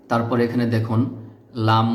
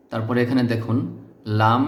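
The two takes are said the same way.

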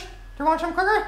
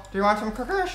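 First: Much higher and fast, syrupy offer; sweet granny voice. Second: Said in the usual way. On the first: Pretend. Gamer offering enemies cookies in a sugary high voice. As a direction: sweetly tempt them like a doting grandma.

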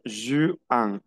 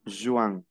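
First: Juin split into JU and AN; juin in two parts. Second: Said in the usual way. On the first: Shown as a demonstration. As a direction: stretch juin, pausing before the AN sound. (juin separado en JU y AN) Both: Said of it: "Yo pronuncio Juan".

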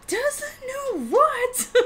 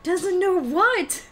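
First: Very high, very slow, laughing through it; hammed-up disbelief. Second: Slow, drawn-out, louder and higher; mock outraged question. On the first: Topping her own mock outrage, squealing slowly with a laugh. Repeats again, even more outraged. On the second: Repeating a friend's question in mock outrage, slow and loud. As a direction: stretch it out in playful disbelief.

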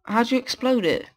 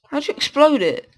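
First: Said in the usual way. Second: Higher, exasperated repeat; how'd you explode it, pitched up in disbelief; incredulous. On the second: Real, not acted.

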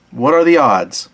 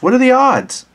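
First: Said in the usual way. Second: High exclamation. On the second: Shown as a demonstration.

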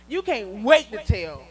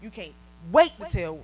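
First: "wait" stretched out and pressed; slow emphatic repeat. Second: Said in the usual way. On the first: Shown as a demonstration. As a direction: lean slowly into "wait", a bit louder. Repeats line to children.

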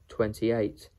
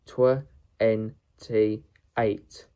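First: Said in the usual way. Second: "twenty-eight" in loud, separate pieces; syllable by syllable. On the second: Shown as a demonstration. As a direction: sound out "twenty-eight" with a gap after each part. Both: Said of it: "How to pronounce twenty-eight".

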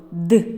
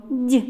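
First: Д as hard, unpalatalized "d"; short isolated Д with a dark release; name the hard sound Д; hard consonant. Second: Д as palatalized "d'"; short isolated Д with tongue raised; name the soft sound Д, like "dyi"; soft consonant. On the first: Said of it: "з твердим звуком". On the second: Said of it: "з м'яким звуком". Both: Shown as a demonstration.

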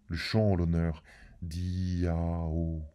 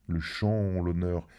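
First: Slow, stretched le chant en l'honneur d'Iao; drawn out. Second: Said in the usual way. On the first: A narrator's reading. Announcing the hymn to Iao, slowly intoned. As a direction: intone each word slowly like a rite.

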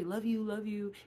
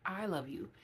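First: Quick, tossed-off love you with no I; rushed love you. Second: I love you with the I clearly stressed; a deliberate, sincere I love you; intentional I love you. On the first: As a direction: rattle off love you love you carelessly. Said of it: "Put the I in front of it. See how fast you say it then". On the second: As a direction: land on the I and mean it. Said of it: "Be intentional and say who the love is coming from". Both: Shown as a demonstration.

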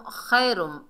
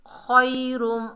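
First: खैरुम with a thin "khai", said quickly; common mistake demo. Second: खैरुम slow and higher, as rounded "khoy-rum"; correct heavy kha. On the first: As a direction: say खैरुम lightly as "khay-rum", kh unthickened. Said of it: "बाद लोग पढ़ते हैं". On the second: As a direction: draw out खैरुम with a thick, back "kh". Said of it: "खा को मोटा पढ़ना है". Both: Shown as a demonstration.

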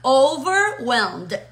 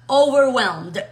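First: Slow "Overwhelmed" in two clear halves; drawn-out teaching model of "Overwhelmed"; divided in two. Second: "overwhelmed" as one connected word, loud; firm, joined-up model of "overwhelmed"; all joined together. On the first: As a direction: stretch out "Over", then "whelmed". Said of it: "Está dividido en dos palabras". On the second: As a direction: run "over" straight into "whelmed". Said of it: "Lo pegamos todo y decimos". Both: Shown as a demonstration.

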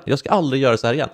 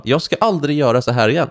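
First: Fast, rushed repeat of the line; rattled off fast. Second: Said in the usual way. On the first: Retold or imitated. Copying punishment lines after school, rushed and fast. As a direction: gabble it like a copied punishment line. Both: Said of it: "sitta och skriva".

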